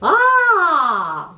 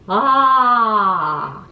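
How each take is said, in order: First: It is said at a high pitch. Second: It is said at a middle pitch.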